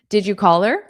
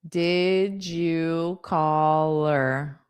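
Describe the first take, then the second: First: The question is said at a quick natural pace. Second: The question is said slowly.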